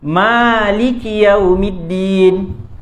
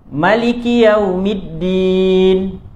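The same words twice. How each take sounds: First: The first vowel of Maliki is held long. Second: The first vowel of Maliki is kept short. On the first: "ma tu akan dipanjangkan" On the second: "dia tak panjangkan mim tu, dia tak madkan"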